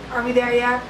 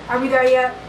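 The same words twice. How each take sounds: The two takes are said the same way.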